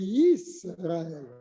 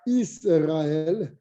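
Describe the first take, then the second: First: The word begins with a clear y sound. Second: The word begins with a plain vowel sound. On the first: The speaker calls it right. "C'est Yisraël. ... Il faut bien le dire, le Yud" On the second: The speaker calls it wrong. "C'est pas Israël"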